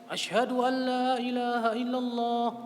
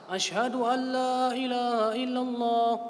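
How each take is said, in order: No difference in how they are said.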